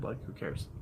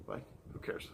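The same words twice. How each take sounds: First: Said in the usual way. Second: Voiceless repeat of who cares; whispered. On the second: Real, not acted. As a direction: drop to a whisper. Second take whispered.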